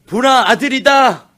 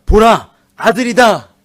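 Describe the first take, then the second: First: Slow, high and loud, stressing 아들이다; proclaiming. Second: Louder, higher and slow, like an announcement; proclaiming. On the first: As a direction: announce the son with wonder. Proclaiming Leah's words again. (레아가 첫 아들을 얻고 외치듯, 느리고 크게) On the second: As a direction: declare it slowly and loudly. Proclaiming Leah's words. (레아의 감격을 크게 천천히 선포하듯) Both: Acted.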